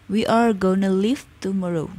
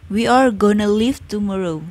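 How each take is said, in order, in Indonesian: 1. 'Going to' disingkat menjadi 'gonna'. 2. 'Going to' disingkat menjadi 'gonna'.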